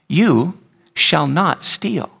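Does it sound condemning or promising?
promising. It sounds like a warm, glorious promise.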